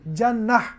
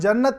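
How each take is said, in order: First: The word ends with an h sound. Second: The word ends with a clear t sound. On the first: This is how four reciters stop on it, against the script. "हा के ज़रिए से वक्फ करेंगे" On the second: This is how most reciters stop on it. "जन्नत के बजाय"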